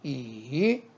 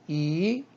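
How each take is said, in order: First: The pitch dips low then rises. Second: The pitch rises from mid to high. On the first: "삼성" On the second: "이성"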